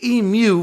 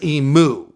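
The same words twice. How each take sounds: First: It is pronounced the Australian way. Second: It is pronounced the American way. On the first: It shows respect to Australians. "pronounce it the way the Aussies would prefer" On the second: It is the speaker's natural habit. "every fiber of my American being wants to pronounce"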